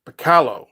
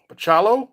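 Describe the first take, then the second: First: Bacalo said with a hard k, puh-KAH-loh; first try at name. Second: Bacalo said with ch, puh-CHAH-loh, rising; second try at name. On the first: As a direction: Bacalo with k sound, falling. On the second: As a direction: Bacalo with ch sound, questioning. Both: Shown as a demonstration. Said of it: "Oh, that sounds terrible".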